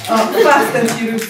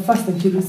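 First: "Fast and Furious" said slowly, leaning on "Fast"; drawn-out punning emphasis. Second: Said in the usual way. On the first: Acted. Slammer repeating a film title as a pun, drawn-out emphasis on "Fast".

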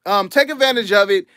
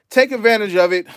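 First: Said in the usual way. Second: Out of breath. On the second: Real, not acted. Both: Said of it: "I'm out of breath".

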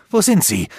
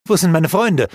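First: Louder and higher, WO stressed; insist, cutting her off; insistent demand. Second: Louder, higher question; worried cry to his mistress for his friends; urgent demand. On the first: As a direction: Aldur insists on knowing where his friends are. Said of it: "verlangte Aldur dennoch zu wissen". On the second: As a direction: press her for an answer. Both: A narrator's reading.

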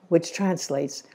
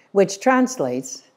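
First: Said in the usual way. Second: Drawn-out, emphatic "which translates"; slow emphasis. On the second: Real, not acted. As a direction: spell out "which translates" slowly for the congregation. Preacher repeats the phrase emphatically.

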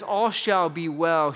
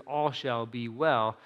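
First: Sincere conviction. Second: Quiet conviction. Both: Retold or imitated. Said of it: "she means it".

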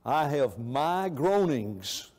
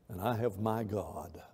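First: Groanings drawn out slowly and falling; heavy slow groanings; slow weight on groanings. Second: And I have my God dropped soft and low; hushed reassurance of God; softer, lower God line. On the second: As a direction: let God land quietly. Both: Shown as a demonstration.

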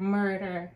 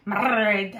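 First: Said in the usual way. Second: Loud, drawn-out Scottish "Murder" with a heavy rolled R; Scottish character's accent. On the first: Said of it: "when they say the word murder". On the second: Retold or imitated. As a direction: imitate a Scottish audiobook character, trilling the R in "Murder". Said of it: "there's one character and he always says".

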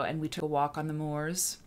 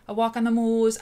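First: Said in the usual way. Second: A half-hearted Yorkshire accent, higher and louder; failed Yorkshire accent. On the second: Shown as a demonstration. Host trying a Yorkshire accent for her chat, mock Yorkshire. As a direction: have a go at Yorkshire on "moors" and give up. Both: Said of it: "I can't do a Yorkshire accent".

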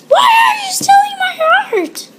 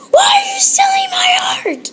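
First: Very high, loud scream with a hammed-up cry; mock wailing scream. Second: Very high, loud hammed-up scream; shrieking mock outrage. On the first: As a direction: wail it like a fake tantrum. Screamed crying mock outrage. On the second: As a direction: scream it like a cartoon.

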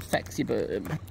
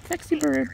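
First: Said in the usual way. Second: Calling a pet bird by name, pitched high; high sing-song call. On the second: Real, not acted. Owner calling a pet bird, high sing-song.

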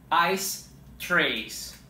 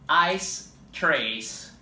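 No difference in how they are said.

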